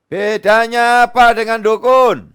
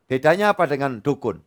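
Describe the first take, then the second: First: Louder, higher, slower challenge; emphatic shout. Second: Said in the usual way. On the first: Real, not acted. Pastor challenges congregation on fortune-telling, loud slow shout. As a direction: hammer the question at the crowd. Rhetorical question repeated louder.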